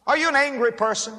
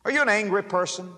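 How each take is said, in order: First: Pressing question. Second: Said in the usual way. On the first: Real, not acted. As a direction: push the question home to the listener. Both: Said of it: "question repeated with more force".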